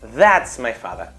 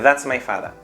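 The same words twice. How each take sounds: First: The stress falls strongly on that. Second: The stress falls on father, not on that. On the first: It singles out which person is meant. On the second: It simply tells who the man is.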